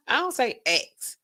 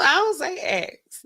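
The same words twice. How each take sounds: First: Said in the usual way. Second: Slow, careful I don't say X with X as a word; I don't say X said slow and deliberate; own way of saying it. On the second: Shown as a demonstration. Podcast host insisting on her own pronunciation.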